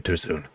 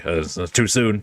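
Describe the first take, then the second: First: Muttered too soon. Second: Said in the usual way. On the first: Real, not acted. Apologizing for his pun.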